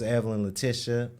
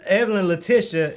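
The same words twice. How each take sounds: First: The name is said in a calm, plain way. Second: The name is said with lively, enthusiastic energy. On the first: The speaker calls it wrong. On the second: The speaker calls it right.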